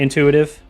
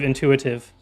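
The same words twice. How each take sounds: First: The word is slurred with sounds run together. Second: The word is said carefully with every sound clear. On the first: The speaker calls it wrong. "slur a lot of words and just kind of be lazy about pronunciation" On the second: The speaker calls it right. "the way it's supposed to be pronounced"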